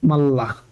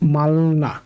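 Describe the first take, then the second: First: The middle sounds are a doubled l. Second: The middle sounds are an l then an n. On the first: The speaker calls it right. "তাই এটা উচ্চারণ হবে মাল্লা" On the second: The speaker calls it wrong. "উচ্চারণ হওয়ার কথা ছিল মালনা"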